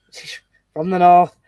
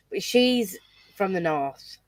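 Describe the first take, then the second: First: North said broad and louder, Yorkshire vowels; broad northern accent. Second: Said in the usual way. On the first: Shown as a demonstration. Telling friends where the girl is from, broad Yorkshire. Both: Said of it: "From, like, my north".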